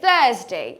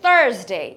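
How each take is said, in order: First: The r sound after the vowel is silent. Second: The r sound after the vowel is pronounced. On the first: "British অ্যাকসেন্টে যারা কথা বলে তারা আরটা উচ্চারণ করবে না" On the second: "Americans will say Thursday"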